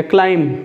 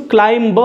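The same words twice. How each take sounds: First: क्लाइंब ending on m, b left silent. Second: क्लाइंब with the final b sounded out; b pronounced. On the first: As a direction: say क्लाइंब as "klaim", with no b. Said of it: "M के बाद आता है तो silent होता है". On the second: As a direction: say क्लाइंब with an audible "ba" at the end. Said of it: "इसको क्लाइंब नहीं बोलेंगे". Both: Shown as a demonstration.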